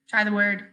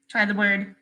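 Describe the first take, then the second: No difference in how they are said.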